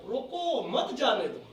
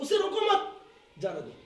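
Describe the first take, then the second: First: The pause comes right after रोको. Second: The pause comes right after मत.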